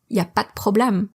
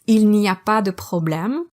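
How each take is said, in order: First: The opening il n'y is dropped. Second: The opening il n'y is fully said.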